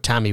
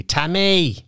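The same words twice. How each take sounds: First: Said in the usual way. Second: Second Tammy high and stretched, "Ta-may"; hammed-up north side Tammy; north side accent. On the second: Shown as a demonstration. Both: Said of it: "but Tammy would be Tammy".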